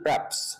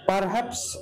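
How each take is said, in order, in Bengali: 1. প্রথম স্বরধ্বনিটি লোপ পায়, উচ্চারণ হয় praps-এর মতো। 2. দুটি অক্ষরই পূর্ণভাবে উচ্চারিত হয়, per-haps। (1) "আমরা উচ্চারণটা করি প্র্যাপস" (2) "সাধারণত এভাবে কেউ বলে না"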